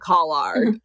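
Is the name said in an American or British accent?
British. The name is said with a British pronunciation. This is how the people on the show say it. "They say Collard"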